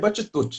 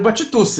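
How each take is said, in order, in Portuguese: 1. O nome é pronunciado do jeito italiano. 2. O nome é pronunciado do jeito do português brasileiro. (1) "Se a gente estivesse na Itália, a gente falaria Batitucci" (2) "Que é como a gente pronuncia no Brasil"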